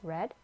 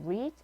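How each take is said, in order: First: The vowel is short, like 'red'. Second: The vowel is long, like 'reed'. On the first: It is the past or past participle form. "과거형이나 pp 형태일 땐 read라고 읽어요" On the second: It is the base form of the verb. "원형일 땐 read"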